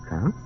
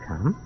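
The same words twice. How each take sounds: The two takes are said the same way.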